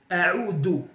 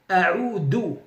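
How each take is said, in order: The two takes are said the same way.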